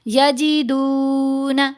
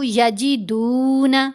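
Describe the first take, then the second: First: The vowel after the d is stretched very long. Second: The vowel after the d is held moderately long. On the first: The speaker calls it wrong. "ऐसे बहुत लंबा भी नहीं करना, ये भी गलत है" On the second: The speaker calls it right. "बहुत ज्यादा लंबा भी नहीं कर दिया"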